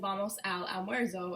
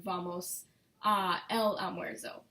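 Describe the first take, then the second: First: 'A' and 'el' merge into one syllable, 'al'. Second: 'A' and 'el' are said as separate words. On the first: The speaker calls it right. "you're saying just al" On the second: The speaker calls it wrong. "instead of vamos a el almuerzo"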